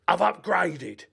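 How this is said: It is said in an imitated put-on voice.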